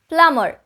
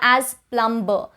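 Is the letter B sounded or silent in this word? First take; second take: silent; sounded. First: The B is silent. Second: The B is pronounced. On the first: The speaker calls it right. "the B in this spelling is silent" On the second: The speaker calls it wrong. "It is oftenly mispronounced"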